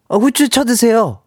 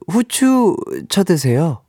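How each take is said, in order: First: It is said in a blunt, harsh tone. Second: It is said in a soft, gentle tone.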